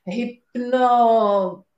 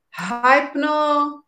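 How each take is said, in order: First: First syllable of hypno said like "hip"; hypno with short i. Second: First syllable of hypno said like "high"; hypno with long i. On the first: Unsure speaker hunting for the word, hypno with short i. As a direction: sound out "hip-no", drawn out. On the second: Unsure speaker hunting for the word, hypno with long i. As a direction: try out hypno as "high-pno". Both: Real, not acted. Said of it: "I don't know how to say it".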